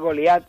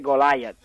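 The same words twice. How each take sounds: First: The name is pronounced with Spanish sounds. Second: The name is pronounced with English sounds. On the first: The speaker calls it wrong. "como si fuera español" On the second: The speaker calls it right. "en inglés dice Goliath"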